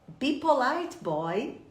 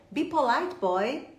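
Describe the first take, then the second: Both takes have the same delivery.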